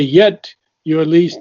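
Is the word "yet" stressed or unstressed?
stressed. The word "yet" carries strong emphasis. The speaker calls it wrong. "I wouldn't emphasize the word yet because you say yet your least"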